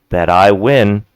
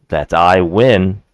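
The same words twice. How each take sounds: The two takes are said the same way.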